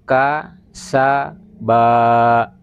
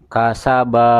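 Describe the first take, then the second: First: The syllables are separated by pauses. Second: The syllables are joined smoothly in one go. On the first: The reader is still working out each letter. "supaya dibaca putus-putus saja. Ya, seperti ini" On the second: The reader already knows the letters well. "ini cara baca seperti ini jika ... sudah sangat mengenal huruf"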